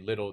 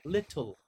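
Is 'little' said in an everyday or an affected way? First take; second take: everyday; affected. First: It is said in an ordinary, everyday way. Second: It is said in a special, affected way. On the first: This is how most people say it. "they don't say little" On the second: This is how a particular group says it. "they like have their own pronunciation system"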